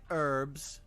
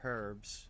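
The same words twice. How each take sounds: First: The word is said without the H sound. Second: The word is said with its H sound.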